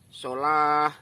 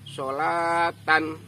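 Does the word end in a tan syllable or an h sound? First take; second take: h sound; tan. First: The word ends with a breathy h sound. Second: The word ends with the full syllable tan. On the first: The reader stops at this word. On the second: The reader keeps going without stopping.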